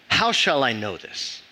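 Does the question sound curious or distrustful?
distrustful. It sounds doubting and distrustful.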